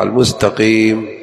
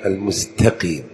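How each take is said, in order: First: المستقيم with ط in place of ت; wrong emphatic t in المستقيم; ta as heavy tah. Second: المستقيم with a thin, soft ت; light ta. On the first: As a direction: darken the t in المستقيم. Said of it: "ليقلب التاء طاء". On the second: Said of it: "وليجتنب حرف الطاء". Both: Shown as a demonstration.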